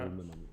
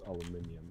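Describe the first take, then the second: First: The word is said with four syllables. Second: The word is said with five syllables. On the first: This is the American form. "in U S English it's" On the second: This is the British form. "in British English it's"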